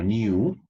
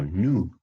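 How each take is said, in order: First: "new" as nee-oo, rising; "new" with a y-glide. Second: "new" as noo, falling; "new" without y-glide. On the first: Teacher offering the first of two options, "new" as rising nyoo. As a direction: say "new" as NYOO, lifting at the end. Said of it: "Si quiero digo new". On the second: Teacher offering the second option, "new" as falling noo. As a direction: say "new" as NOO, straight into the vowel. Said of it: "o si digo new". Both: Shown as a demonstration.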